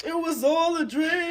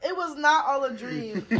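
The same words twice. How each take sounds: First: Higher, hammed-up quote of a rap lyric. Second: "not" punched to deny it; stress on "not". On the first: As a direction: belt out the famous line playfully. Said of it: "as [name] said". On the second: Real, not acted. Podcaster correcting the quoted lyric, "not" stressed. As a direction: lean hard on "not", amused correction.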